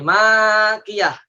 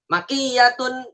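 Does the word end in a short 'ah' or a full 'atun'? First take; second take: ah; atun. First: The word ends in a short 'ah' sound. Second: The word ends in a full 'atun' sound. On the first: The speaker calls it wrong. "kalau kita baca makiyah salah" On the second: The speaker calls it right. "bacanya gitu"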